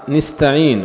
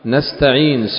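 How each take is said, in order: First: The first syllable has an i vowel. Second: The first syllable has an a vowel. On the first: "فإنهما كسراها" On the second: "بفتح النون أول كلمة في قراءة الجميع"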